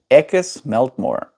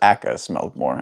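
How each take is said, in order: First: It is said in the KP accent. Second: It is said in the speaker's own accent.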